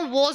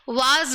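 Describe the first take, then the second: First: The vowel is a rounded 'aw' sound. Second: The vowel is an open 'ah' sound. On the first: The speaker calls it right. "वॉज होती है" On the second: The speaker calls it wrong. "वाज नहीं होती"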